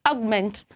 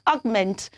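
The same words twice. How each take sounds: Both takes have the same delivery.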